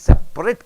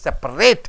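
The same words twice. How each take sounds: First: The stress is on the first syllable. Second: The stress is on the last syllable. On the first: The word describes something as apart. "Separate means it is an adjective" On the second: The word names the action of dividing. "It is a verb"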